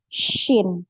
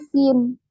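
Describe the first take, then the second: First: It begins with a spread sh sound. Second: It begins with a plain s sound. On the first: The speaker calls it right. "tapi shin ya" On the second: The speaker calls it wrong. "Tapi kita nggak bacanya sin"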